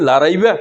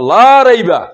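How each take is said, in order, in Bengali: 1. 'la'-র স্বরধ্বনিটি ছোট ও ঝটপট। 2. 'la'-র স্বরধ্বনিটি লম্বা ও টানা। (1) "এখানে কি লা রাইবা" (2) "এই টানের সাথে ইমান থাকবে"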